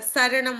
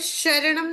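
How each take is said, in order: First: The word begins with an s sound. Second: The word begins with a sh sound. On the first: The speaker calls it right. "यहाँ पे यही स चलता है" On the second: The speaker calls it wrong. "यहाँ पे शरणम नहीं बोला"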